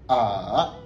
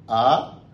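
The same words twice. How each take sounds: First: It is said with the third tone. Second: It is said with the second tone. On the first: "Et le troisième, ça va donner A" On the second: "Le deuxième, ça va donner A"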